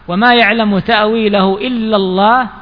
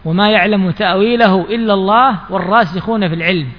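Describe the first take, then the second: First: The phrase stops with a pause after Allah. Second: The phrase runs on without a pause after Allah. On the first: Only God knows its interpretation. "وهنا وقف" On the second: Those firm in knowledge also know its interpretation. "على أحد قولي أهل السنة في الوقف"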